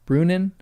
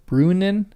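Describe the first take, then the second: The two takes are said the same way.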